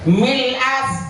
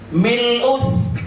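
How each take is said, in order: First: The word ends with an a vowel. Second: The word ends with an u vowel.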